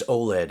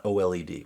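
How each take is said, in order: First: Oled run together as "oh-led"; said as a word. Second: O L E D read as separate letters; name each letter in O L E D; spelled-out letters. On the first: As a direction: read oled as a two-syllable word, not letters. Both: Retold or imitated. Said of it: "so many people say".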